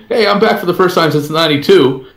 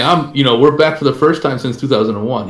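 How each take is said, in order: First: Mildly hyped, higher-pitched mock boast; a touch of imitated showy excitement; mock comeback announcement. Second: Said in the usual way. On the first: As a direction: act out a splashy personal comeback, lightly. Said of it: "he wasn't acting like". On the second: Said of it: "He was saying".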